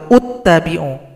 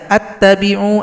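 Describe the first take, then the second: First: The word begins with a u vowel. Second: The word begins with an a vowel. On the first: "atau uttabi'u" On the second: "Jangan dibaca attabi'u"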